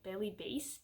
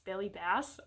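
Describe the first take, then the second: First: "Bailey Bass" with Bass said like base, rhyming with face; name pronunciation. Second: "Bailey Bass" with Bass said like the fish, short a; name pronunciation. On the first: Trying out the actress's name, "Bass" said as base. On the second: Settling on the actress's name, "Bass" like the fish. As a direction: say "Bass" to rhyme with mass. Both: Shown as a demonstration. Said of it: "I prefer that it was Bass, not Bass".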